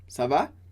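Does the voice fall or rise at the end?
rise. The pitch rises at the end. It asks how someone is. "na pergunta"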